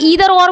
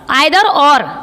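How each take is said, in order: First: Either begins with an 'ee' vowel sound. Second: Either begins with an 'eye' vowel sound. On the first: "कोई ... ईदर और बोलता है" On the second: "मैं जैसे pronunciation कर रही हूँ"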